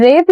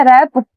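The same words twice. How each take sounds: First: "रेप" with a long e vowel, as in grape; pronunciation query. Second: "रैप" with an open ae vowel, as in cap; pronunciation query. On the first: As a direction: say "रेप" with the closed e sound. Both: Shown as a demonstration. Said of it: "रेप या रैप?".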